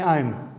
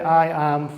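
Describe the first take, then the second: First: It is said as one short contracted syllable. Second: It is said as two separate full words. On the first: The speaker calls it right. "When we speak it, we say I'm" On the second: The speaker calls it wrong. "usually we don't say I am from Sudan"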